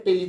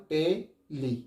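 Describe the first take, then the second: First: Said in the usual way. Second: tele slowly as টে, লি, softer; slow two-beat breakdown. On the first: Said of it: "tele তো একবারেই হচ্ছে". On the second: Shown as a demonstration. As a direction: pause between টে and লি in tele. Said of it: "আস্তে আস্তে উচ্চারণ করো". (Tele ধীরে দুবারে ভেঙে)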